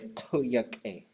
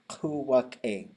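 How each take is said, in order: First: The middle consonant is a y sound. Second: The middle consonant is a w sound. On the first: This is how one particular community prefers to say it. "For Sitka, they prefer to say kuyak-e" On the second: This is how most communities say it. "Most communities do say kuwak-e"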